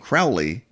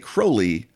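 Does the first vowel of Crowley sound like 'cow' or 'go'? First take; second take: cow; go. First: The first vowel rhymes with 'foully', like 'cow'. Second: The first vowel rhymes with 'holy', like 'go'. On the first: It is said by people who wish to insult him. The speaker calls it wrong. "because they wish to treat me foully" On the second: It is said by his friends who respect him. The speaker calls it right. "for they know I am holy"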